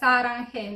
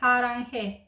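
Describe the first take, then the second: First: The first s sound is hard and tense. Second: The first s sound is soft and light. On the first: The speaker calls it wrong. "mulți pronunță Saranhe, nu este Saranhe" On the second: The speaker calls it right. "e Saranhe, dar este un S mai moale"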